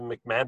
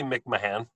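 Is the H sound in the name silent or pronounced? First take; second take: silent; pronounced. First: The H in the name is silent. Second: The H in the name is pronounced. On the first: "the H is probably silent" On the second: "but it could be"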